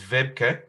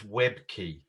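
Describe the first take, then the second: First: The name has a European pronunciation. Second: The name has an English pronunciation. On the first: "There's the European way" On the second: "the English way is"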